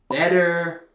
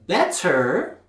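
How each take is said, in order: First: The middle T is a soft D-like tap. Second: The middle T is a full, sharp T. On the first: The speaker calls it right. "When Americans say stuff like better" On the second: The speaker calls it wrong. "They don't say better"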